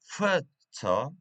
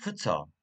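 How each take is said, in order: First: "photo" stressed at the start, as in photograph; stress on first syllable. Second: "photo" with a weak, short first syllable and stressed "to"; "photo" stressed as in photographer, fuh-TOH; stress on second syllable. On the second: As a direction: lean on the end of "photo". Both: Shown as a demonstration. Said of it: "photograph and photographer".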